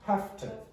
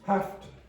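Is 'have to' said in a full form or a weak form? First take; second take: weak; weak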